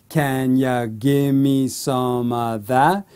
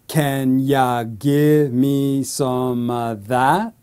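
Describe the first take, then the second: First: The question is spoken at medium speed. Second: The question is spoken slowly. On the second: "So slowly"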